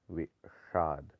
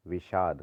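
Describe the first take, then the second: First: विषाद slowly as "ve - shaad"; wrong split sound. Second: विषाद joined as "vishaad"; lighter sibilant. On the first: Teacher showing the error, विषाद slow with heavy sh. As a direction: curl the tongue on षा in विषाद. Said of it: "नहीं होता". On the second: Teacher correcting it, विषाद joined and light. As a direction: run विषाद together with light sh. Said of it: "होता है". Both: Shown as a demonstration.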